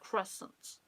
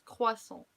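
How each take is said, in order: First: It is said with an English accent. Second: It is said with a French accent.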